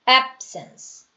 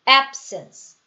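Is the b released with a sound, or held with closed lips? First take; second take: held; held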